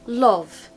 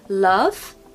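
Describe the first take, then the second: First: The vowel is a rounded 'o' sound. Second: The vowel is an open 'uh' sound. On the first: The speaker calls it wrong. "So the second one is not the pronunciation" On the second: The speaker calls it right. "The first one is what we want"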